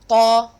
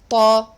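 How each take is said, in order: No difference in how they are said.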